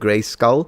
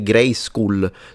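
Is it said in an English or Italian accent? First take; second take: English; Italian. First: The name is said with English pronunciation. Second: The name is said with Italian pronunciation. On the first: The speaker calls it right. "it's Gray Skull, right?" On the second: The speaker calls it wrong. "they didn't pronounce right. ... sounds like a ... school rather than a skull"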